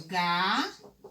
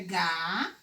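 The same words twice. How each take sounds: First: "galo" drawn out as gaaa, pause, lo; split into syllables. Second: "ga" held long on its own, rising; split into syllables. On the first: Teacher separates the word for pupils, syllable by syllable. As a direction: break "galo" slowly into ga and lo. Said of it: "Se eu vou separar a palavra". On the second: Teacher separates galho for pupils, syllable by syllable. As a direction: stretch "ga" as a separate first syllable. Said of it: "quando eu vou separar galho". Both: Shown as a demonstration.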